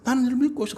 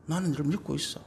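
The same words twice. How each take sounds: First: Firm trust. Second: Soft reassurance. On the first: Parent reassuring child about the rumor, firmly. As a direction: declare trust with force. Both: Shown as a demonstration.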